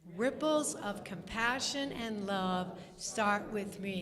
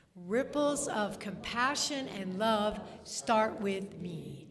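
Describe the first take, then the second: Both takes have the same delivery.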